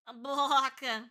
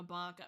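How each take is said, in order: First: "baka" louder with a long stretched first vowel; imitated drawn-out baka. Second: Said in the usual way. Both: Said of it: "However she fucking says it".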